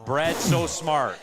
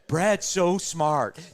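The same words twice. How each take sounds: First: It is read flatly, without much expression. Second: It is read with a lively, expressive tone.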